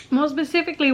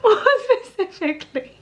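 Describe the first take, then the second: First: Said in the usual way. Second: Gather yourself and try again while crying; tearful restart. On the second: Real, not acted. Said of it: "I'm full on crying".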